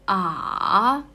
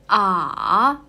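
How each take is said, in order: First: The pitch dips low and then rises. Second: The pitch dips low and then rises.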